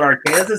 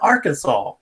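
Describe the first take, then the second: First: The ending is pronounced like the word Kansas. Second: The ending is pronounced like the word saw. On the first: This is how visitors say it. The speaker calls it wrong. "No, that's not Arkansas" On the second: This is how locals say it. The speaker calls it right. "That's Arkansas"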